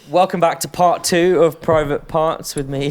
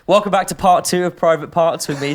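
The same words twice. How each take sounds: First: It is said in a flat, monotone voice. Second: It is said in a lively, energetic voice. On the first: "why did you say that so monotone?" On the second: "Come on, more energy, [name]"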